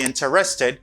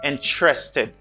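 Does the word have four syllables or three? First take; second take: four; three. First: It is said with four syllables, in-ter-es-ted. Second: It is said with three syllables, in-tres-ted. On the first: The speaker calls it wrong. "Do not say interested" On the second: The speaker calls it right. "Say instead interested. Intre. This syllable doesn't pronounce"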